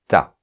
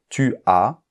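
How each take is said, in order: First: The vowel of tu is dropped and merged. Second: The vowel of tu is fully pronounced. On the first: This is everyday casual speech. "généralement on dit t'as" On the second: This is the standard form. "normalement le pronom tu ne fait pas l'élision"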